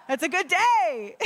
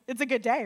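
First: High, loud, laughing through "It's a good day"; delighted giggly repeat. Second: Said in the usual way. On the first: Real, not acted. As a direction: laugh it out with joy.

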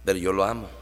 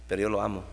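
First: Quiet, with "lo" given the weight; stress on lo. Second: Quiet, with "yo" given the weight; stress on yo. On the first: Preacher to his church, stress on "lo". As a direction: lean on "lo", the brother who is loved anyway. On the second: Preacher to his church, stress on "yo". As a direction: lean on "yo", the one who still loves. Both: Shown as a demonstration.

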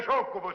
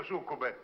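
First: Succubo said firmly with a final o, a bit louder; schoolmasterly correction, succubo with the o; correcting the word. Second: Succube mimicked back with a final e, mockingly; quoting the word succube back to mock the mistake; mocking wrong word. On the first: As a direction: stress the correct ending of succubo. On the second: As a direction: repeat succube with the e ending, quieter, as a jab. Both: Shown as a demonstration. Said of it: "Si dice succubo".

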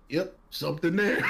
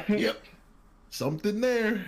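First: Quoting the doctor, breaking into laughter; doctor quote laughing. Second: A light imitation of a flat, matter-of-fact doctor; quoting the doctor again, dry and deadpan; mock deadpan doctor. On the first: Retold or imitated. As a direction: crack up while quoting him. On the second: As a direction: say it like it's nothing. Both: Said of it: "I will never forget this".

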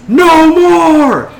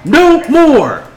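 First: High, full-throated mob chant; crowd yelling back. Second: High, loud battle cry from a speaker; leader's rallying yell. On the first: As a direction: roar it back as the whole crowd. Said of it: "the crowd yells". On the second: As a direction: yell it out to rouse the crowd. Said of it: "she yells". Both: Acted.

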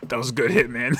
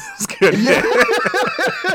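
First: Said in the usual way. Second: Very high, slow, laughing through it. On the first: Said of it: "he's like". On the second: Real, not acted. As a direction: squeal it out while cracking up. Repeating the line while laughing.

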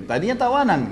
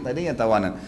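First: "Tadinya tawanan" lifted high with the stress on "tawanan"; "Tadinya tawanan" stressed, rising then falling on "tawanan"; emphatic. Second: Said in the usual way. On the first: Shown as a demonstration. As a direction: hit "Tadinya tawanan" hard and high, as the point of the story.

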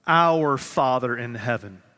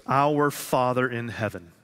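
First: "Our" stressed, a touch louder, slower. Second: Said in the usual way. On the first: Shown as a demonstration. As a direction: lean on "Our", slowly. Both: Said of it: "Not my Father, not your Father".

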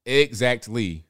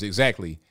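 First: Exactly drawn out, firmly stressed; emphatic Exactly. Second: Said in the usual way. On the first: Real, not acted. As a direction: stretch out "Exactly" to drive the agreement home. Repeats the agreement for emphasis.

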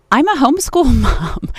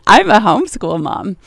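First: Laughing through homeschool mom, pitched up; can't keep straight face. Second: Amused second attempt at saying it; barely straight face. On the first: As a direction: break into a real laugh mid-phrase. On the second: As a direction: say it again, holding back a laugh. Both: Real, not acted. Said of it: "can't even say that with a straight face".

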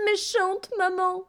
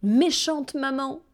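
First: Put-on very high, slow wailing child; high slow child's wail; upset little girl. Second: Put-on higher, slow child's protest; a hurt child crying out at her mother; slow, higher wail of reproach; upset little girl. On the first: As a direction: repeat the reproach, even higher and more tearful. Girl repeats, higher.

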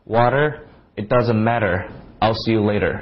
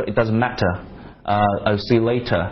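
First: Loose American flap on each t; casual American t. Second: Matter and later with sharp clear t; crisp British t. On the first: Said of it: "美国人就比较随便了". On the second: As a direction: exaggerate every t, British style. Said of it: "把那个T要稍微夸张一点". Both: Shown as a demonstration.

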